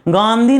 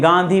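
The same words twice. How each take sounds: First: Exaggerated "gaan" in गांधी; wrong pronunciation. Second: गांधी with an unexaggerated first syllable; correct pronunciation. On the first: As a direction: stretch the first syllable of गांधी. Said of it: "गांधी नहीं पढ़ते हैं". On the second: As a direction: say गांधी evenly, without stretching it. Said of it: "गांधी पढ़ते हैं". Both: Shown as a demonstration.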